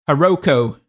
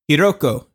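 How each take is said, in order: First: The name is pronounced in an anglicized, mangled way. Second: The name is pronounced in the native Japanese way. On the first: The speaker calls it wrong. "Give me the Selleck" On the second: The speaker calls it right. "And then the real one"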